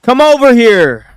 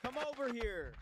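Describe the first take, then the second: First: Higher, loud come over here; loud summons from across the room; loud call. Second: Higher, soft come over here; quiet higher-pitched beckoning; soft higher call. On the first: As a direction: call someone over loudly. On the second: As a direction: call someone over softly. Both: Shown as a demonstration. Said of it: "How am I supposed to make this sound right?".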